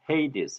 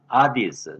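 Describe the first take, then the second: First: It starts with 'hay', then 'dees'. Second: It starts with a bare 'a', no h. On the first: "영어로는 헤이디스" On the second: "제가 현대 그리스 말로 발음을 해봤어요"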